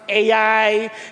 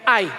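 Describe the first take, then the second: First: It is said as two vowels, ah then ee. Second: It is said as one syllable, like eye. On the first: "some people would they would pronounce it A I" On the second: "eto I. Basta sa atin, I"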